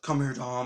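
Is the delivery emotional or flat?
flat. It is said flatly, without emotion. The speaker calls it wrong. "he's just like"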